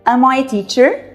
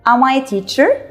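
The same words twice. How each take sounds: Both takes have the same delivery.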